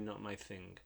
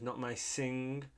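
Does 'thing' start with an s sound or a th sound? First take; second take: th sound; s sound. First: The last word starts with a th sound. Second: The last word starts with an s sound. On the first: The speaker calls it right. "it should be not my thing" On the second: The speaker calls it wrong. "he says not my thing"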